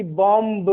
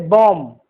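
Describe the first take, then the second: First: "बॉम्ब" with the final b sounded; wrong pronunciation. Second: "बॉम्ब" as bom, no b at the end; silent B. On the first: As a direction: release a b after the m in "बॉम्ब". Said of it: "गलत उच्चारण है". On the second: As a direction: close "बॉम्ब" on the m. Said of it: "न कि बॉम्ब". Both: Shown as a demonstration.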